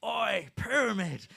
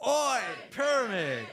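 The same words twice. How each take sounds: First: Loud, drawn-out yell of a fan; imitated yell. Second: Loud, slow crowd yell; crowd shout. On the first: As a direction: bellow it like a fan across the room. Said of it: "he would yell at me". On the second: Real, not acted. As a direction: shout it back at the band together. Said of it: "let's just try this out".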